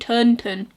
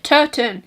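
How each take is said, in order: First: It is said with an n before the t. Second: It is said without an n before the t. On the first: The speaker calls it wrong. "I was saying Turnton" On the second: The speaker calls it right. "I said it right"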